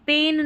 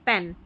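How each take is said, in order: First: The vowel is long, like in pain. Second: The vowel is short, like in pen. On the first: The speaker calls it wrong. "इसको पेन नहीं पढ़ रहे" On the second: The speaker calls it right. "इसको पढ़ते हैं पेन"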